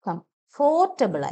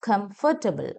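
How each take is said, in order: First: The second syllable has a full 'or' vowel. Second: The second syllable has a weak 'uh' vowel. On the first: The speaker calls it wrong. "കംഫോർട്ടബിൾ അല്ല" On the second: The speaker calls it right. "എ sound ആവുന്നത്"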